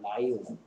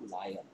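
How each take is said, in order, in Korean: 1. 두 번째 음절은 완전한 'o' 모음이에요. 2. 두 번째 음절은 약한 'uh' 모음이에요. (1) "어떤 사람들은 그래서 이걸 라이온, 라이온 하는 사람도 있어" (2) "원래 발음은 라이언"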